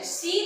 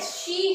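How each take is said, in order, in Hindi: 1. यह शब्द 's' ध्वनि से शुरू होता है। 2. यह शब्द 'sh' ध्वनि से शुरू होता है। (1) "सी नहीं है" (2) "शी है"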